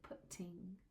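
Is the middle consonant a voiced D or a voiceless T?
voiceless T. It has a voiceless T middle sound, British style.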